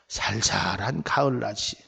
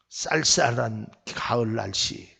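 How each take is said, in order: First: The first word starts with a plain s sound. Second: The first word starts with a tense s sound. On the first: The speaker calls it wrong. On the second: The speaker calls it right.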